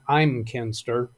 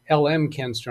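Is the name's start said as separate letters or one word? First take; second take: one word; letters. First: The start is said as one word, I'm. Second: The start is said as two separate letters. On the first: The speaker calls it right. "he's told me it's" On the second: The speaker calls it wrong. "I've still been pronouncing this as"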